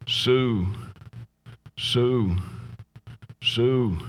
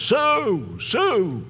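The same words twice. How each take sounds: First: Drawn-out name with long pauses, no force; rocking asylum patient. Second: High-pitched drawn-out wail, falling away at the end; mock scream. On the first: Retold or imitated. Jilted man rocking in the asylum, saying her name over and over, listless repetition. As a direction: imitate a man lost in a slow, repetitive loop. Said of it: "rocking back and forth, and he's saying". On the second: Man in the padded cell crying out the name Sue, high mock scream. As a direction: imitate a screamer without full volume. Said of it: "screaming at the top of his voice".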